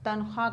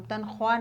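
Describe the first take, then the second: First: तनख्वाह said tankhaa with no w; silent w. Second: तनख्वाह said tankhoaa with the w sounded; wrong take. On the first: Teacher to pupils, saying तनख्वाह as tankhaa with no w. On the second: Teacher to pupils, the wrong way with the w sounded. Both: Shown as a demonstration. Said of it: "तनख्वाह नहीं कहते".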